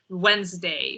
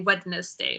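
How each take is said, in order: First: It is said the usual, shortened way. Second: Every letter is sounded out as spelled. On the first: The speaker calls it right. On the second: The speaker calls it wrong.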